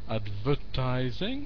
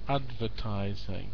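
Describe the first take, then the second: First: The stress is on a later syllable. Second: The stress is on the first syllable. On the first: The speaker calls it wrong. "If I get the stress wrong" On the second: The speaker calls it right. "the stress is on the first"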